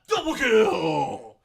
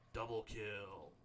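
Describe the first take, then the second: First: It is said with maximum, over-the-top excitement. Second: It is said with moderate, calm energy.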